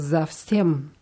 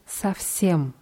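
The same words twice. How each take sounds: First: The first consonant is a voiced z sound. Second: The first consonant is a voiceless s sound. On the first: The speaker calls it wrong. "die Deutschen tendieren dazu, das zu stimmvoll auszusprechen" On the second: The speaker calls it right. "Auf Russisch bleibt es aber ein S"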